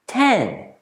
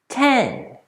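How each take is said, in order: The two takes are said the same way.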